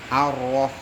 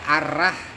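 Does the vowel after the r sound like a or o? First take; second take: o; a. First: The vowel after r is thick, like o. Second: The vowel after r is thin, like a. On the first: The speaker calls it right. "bacanya jadi kayak ditebelkan ... pakai huruf O" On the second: The speaker calls it wrong. "malah justru keliru"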